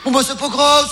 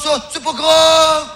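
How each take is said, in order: First: Said in the usual way. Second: Slow, louder "ça, c'est pas grave" with long "grave"; drawn-out reassurance. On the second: Acted. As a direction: stretch out "grave" to soothe him. ("grave" étiré, lent et appuyé)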